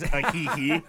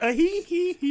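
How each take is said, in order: First: Light sung-out "hee hee" yelp. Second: High giggling "hee hee hee"; mimicked joke-machine cackle. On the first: Retold or imitated. Pitching a video edit to friends, light impression of the singer's squeal. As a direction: toss off the pop star's hee-hee with a laugh. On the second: Pitching the replacement for the singer's squeal, high mock cackle. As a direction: squeal it out like a toy laughing. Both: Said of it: "replace [name]'s".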